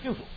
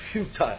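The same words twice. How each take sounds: First: It is said with an American pronunciation. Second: It is said with a British pronunciation. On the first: The speaker calls it wrong. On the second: The speaker calls it right.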